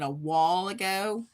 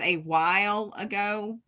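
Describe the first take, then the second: First: While is flattened to sound like 'wall'. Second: While has a full 'eye' vowel glide. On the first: "I don't say while with an I. I always call it a wall ago" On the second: "I know it is a while ago"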